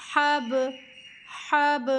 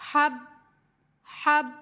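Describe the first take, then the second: First: "हब" with lips closed and sharply released; qalqalah bounce. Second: "हब" with the lips left closed, no release; incomplete qalqalah. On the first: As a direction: bounce the "ब" of "हब" open. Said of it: "दोबारा से हमने होंठों को खोल देना है।". ("हब" में "ब" पर कलकला, होंठ खोलकर) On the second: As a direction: stop "हब" on a shut "ब". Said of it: "कंप्लीट नहीं हुआ।". ("हब" अधूरा, होंठ बंद रखकर) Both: Shown as a demonstration.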